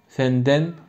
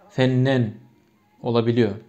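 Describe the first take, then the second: First: The middle consonants are n followed by d. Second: The middle consonants are a double n. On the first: This is the literary standard form. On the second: This is an assimilated colloquial or dialect form.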